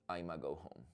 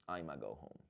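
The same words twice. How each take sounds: First: The start is squeezed into one short syllable. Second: The same.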